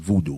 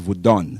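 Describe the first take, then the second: First: The word ends with a long 'doo' syllable. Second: The word ends with a short 'dun' syllable. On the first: The speaker calls it wrong. "which is mispronounced as voodoo" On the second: The speaker calls it right. "the proper name is Vodun"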